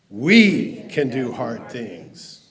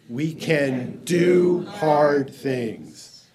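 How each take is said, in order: First: The stress is on "we". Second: The stress is on "do hard things".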